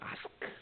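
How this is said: It is said with an American accent. The speaker learned American English. "미국 사람들은 아스크라고 발음을 하지요. 아스크 이렇게 발음하는데"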